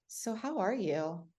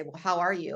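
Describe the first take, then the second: First: Slow, soft and gently rising "So how are you?"; gentle, drawn-out "So how are you?" with a lift on "how"; caring tone. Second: Said in the usual way. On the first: Shown as a demonstration. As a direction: ask "So how are you?" slowly and softly, as if you really want to know. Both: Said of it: "your tone and inflection of asking someone".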